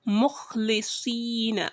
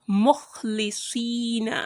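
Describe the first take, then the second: Both takes have the same delivery.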